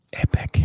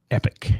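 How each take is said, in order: First: Whispered Epic, softer, for awe; whispered echo. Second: Said in the usual way. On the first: Shown as a demonstration. Repeats praise as whisper.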